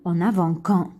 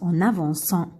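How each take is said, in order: First: The middle consonant is a hard K sound. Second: The middle consonant is a soft S sound. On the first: The speaker calls it wrong. "Si on n'a pas mis, comme حطيناش la cédille, نقراو" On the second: The speaker calls it right. "نحطو la cédille, c'est pour ça on, on prononce"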